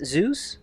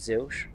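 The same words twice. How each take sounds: First: The name is said with its usual English pronunciation. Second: The name is said with the speaker's native pronunciation.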